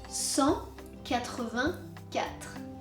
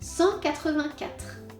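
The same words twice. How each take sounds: First: It is said more slowly. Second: It is said at normal speed.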